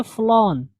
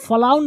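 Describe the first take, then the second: First: फ्लॉन with one rounded o vowel; correct FLOWN. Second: फ्लाउन with an "ow" vowel; mispronounced FLOWN. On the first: Teacher answering own question, फ्लॉन with a single rounded o. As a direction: say फ्लॉन with o, not "ow". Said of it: "क्या पढ़ेंगे?". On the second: Teacher showing learners what to avoid, फ्लाउन with ow as in down. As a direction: say फ्लाउन to rhyme with down. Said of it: "फ्लाउन नहीं पढ़ेंगे आप". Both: Shown as a demonstration.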